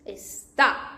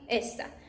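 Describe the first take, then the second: First: The stress is on the last syllable. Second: The stress is on the first syllable. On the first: Someone is in a place or state. "Because it has this accent, and when you pronounce it, you can see está" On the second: It points to a thing nearby. "like this one"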